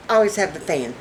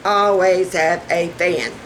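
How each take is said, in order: First: Said in the usual way. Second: "Always have a fan" drawn out slowly; measured, deliberate emphasis; slow emphatic repeat. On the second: Real, not acted. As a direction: spell out the advice slowly, word by word.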